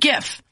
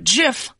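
First: It starts with a hard G sound. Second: It starts with a soft G sound. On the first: The speaker calls it right. "assumed it would stand for graphic interchange formats and therefore be said GIF" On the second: The speaker calls it wrong. "sounds like GIF, like the peanut butter"

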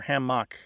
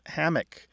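First: The stress is on the second syllable. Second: The stress is on the first syllable. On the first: "hammock tends to have a stress on the second syllable" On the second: "Hammock tends to have a stress on the first syllable"

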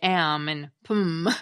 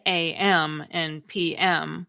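First: Each abbreviation is spoken as one word. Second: Each abbreviation is spoken letter by letter. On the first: The speaker calls it wrong. "We don't say AM and PM" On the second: The speaker calls it right. "we spell the abbreviations as initialisms"

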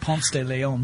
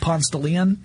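First: It is said with a non-local pronunciation. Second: It is said with the local Atlanta pronunciation. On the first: This is how an outsider says the street name. "It's not Ponce de Leon, which is how my wife pronounces it" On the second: This is how locals say the street name. "this is how we say it in Atlanta"

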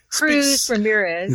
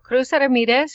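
First: The name is said in an English style. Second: The name is said in a Spanish style. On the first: The speaker calls it right. "it's Cruz as she cruises along" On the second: The speaker calls it wrong. "They didn't pronounce it that way in the film"

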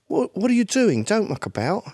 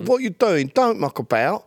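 First: It is spoken with little or no regional accent. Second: It is spoken in a strong East London accent. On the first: The speaker is the man's son, whose accent has faded. "You meet that guy's son, and he's like" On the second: The speaker is a tough local man. "Or even in London, like East London, that whole"

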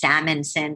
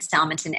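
First: The first part sounds like the fish 'salmon'. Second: The first part does not sound like 'salmon'. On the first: The speaker calls it wrong. "Everybody mangles it and says Salmansohn" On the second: The speaker calls it right. "My last name is Salmansohn"

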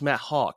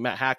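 First: The surname has the vowel of 'hawk'. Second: The surname has the vowel of 'hack'. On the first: The speaker calls it right. "But it's pronounced Matt Hawk" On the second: The speaker calls it wrong. "I was pronouncing it Matt Hack forever"

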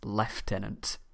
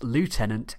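First: It is said with a British accent. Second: It is said with an American accent.

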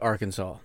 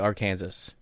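First: The name is said the usual, taught way. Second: The name is said in a jokey, silly way. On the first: This is the proper local name. "All my life I've been taught Arkansas" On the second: This is a playful joke. "being silly, I'll say Arkansas"

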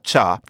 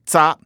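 First: The word begins with a ch sound. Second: The word begins with a z sound. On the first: This is how a different Mandarin dialect says it. "he speaks a different dialect of Mandarin" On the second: This is how the learned standard form says it. "I used the word za. Za, that means wipe"

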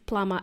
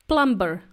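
First: The B sound is left silent in the middle. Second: The B sound is pronounced in the middle. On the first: The speaker calls it right. "So the correct pronunciation is plumber" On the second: The speaker calls it wrong. "he would say plumber"

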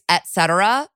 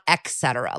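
First: The first syllable sounds like 'et'. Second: The first syllable sounds like 'ex'. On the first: The speaker calls it right. "It's et cetera" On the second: The speaker calls it wrong. "It's not et cetera. Like, I'm saying it with, like, an X"

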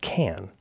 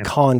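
First: The vowel is short and flat, like 'can'. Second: The vowel is long and open, like 'khan'. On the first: The speaker calls it right. "I think it's pronounced Can" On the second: The speaker calls it wrong. "People say Khan because it sounds fancy"

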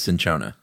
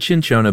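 First: The word begins with an s sound. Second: The word begins with a ch sound. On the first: The speaker calls it right. "but I think it is cinchona" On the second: The speaker calls it wrong. "I always said cinchona"

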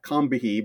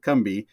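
First: The name is said in full, as spelled. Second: The name is said in a shortened form. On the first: This is how the spelling suggests it. "It's spelled. It should be like Combihee" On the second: This is how local people say it. "the locals there pronounce it Combi"

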